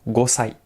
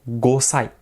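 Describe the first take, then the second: The two takes are said the same way.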